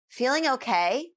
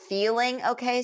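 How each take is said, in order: First: The stress is on the word okay. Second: The stress is on the word feeling. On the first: The asker doubts the person is really okay. "you're emphasizing if they're okay" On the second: The asker is concerned about how the person feels. "the emphasis is on the feeling part"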